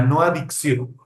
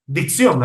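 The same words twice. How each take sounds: First: "adicción" with a clear a- in front, a-dik-SYON. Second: "Dicción" said clearly as dik-SYON, no vowel in front; crisp "Dicción" with a clean d at the start, no "a". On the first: Teacher contrasts the wrong word "adicción" for the webinar. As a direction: set off "adicción" by its opening a-. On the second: Teacher stresses the right word "Dicción" to the webinar. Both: Shown as a demonstration.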